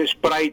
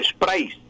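First: "spray" ending in a plain "ai" glide; "spray" closing on the vowel sound. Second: "sprays" ending in a clear S; Castilianized "sprays", final S sounded. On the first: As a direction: say "spray" with no final S. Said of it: "no es spray terminado en Y". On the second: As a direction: close "sprays" on an audible "ais". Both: Shown as a demonstration.

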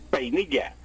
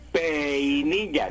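First: Said in the usual way. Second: Peinilla very slow, pe-i-ni-lla with the vowels split; wrong hiatus demo. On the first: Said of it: "tengo que decir peinilla". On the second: Shown as a demonstration. Professor demonstrating the forbidden split, peinilla drawn out slowly. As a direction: drag peinilla out and break the diphthong. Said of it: "Ni puedo decir".

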